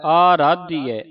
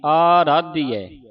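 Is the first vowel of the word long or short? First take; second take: long; long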